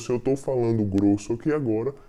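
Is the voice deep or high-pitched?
deep. The voice is low and deep.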